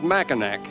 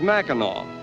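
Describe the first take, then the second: First: The name ends with an 'ack' sound. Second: The name ends with an 'aw' sound. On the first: The speaker calls it wrong. "we called it Mackinac" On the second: The speaker calls it right. "the correct pronunciation is Mackinac"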